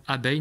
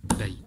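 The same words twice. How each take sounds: First: Said in the usual way. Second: "abeille" clapped out, a, pause, beille; "abeille" split by a clear pause; syllable by syllable. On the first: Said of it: "c'est par exemple abeille". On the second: Shown as a demonstration. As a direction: beat out the two syllables of "abeille". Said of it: "en tapant dans ses mains".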